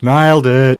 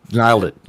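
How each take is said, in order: First: Louder, higher nailed it; excited praise. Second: Said in the usual way. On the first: Real, not acted. Host praises the guest's Aussie impression, louder cheer. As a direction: cheer him on. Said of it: "repeats it louder". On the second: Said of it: "repeats it marked".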